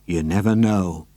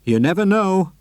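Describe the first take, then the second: First: Lower, ominous repeat; dark and knowing. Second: Said darkly. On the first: Mister Hoppy hinting at his secret, low and dark. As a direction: let the hint hang darkly. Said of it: "said darkly". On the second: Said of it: "Mister Hoppy said darkly". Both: A narrator's reading.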